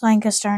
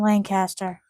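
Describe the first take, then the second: First: It uses the Pennsylvania pronunciation. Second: It uses the California pronunciation. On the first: The place meant is the Pennsylvania town. The speaker calls it right. "it's pronounced Lancaster" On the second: The place meant is the California city. The speaker calls it wrong. "not Lancaster. / That's California"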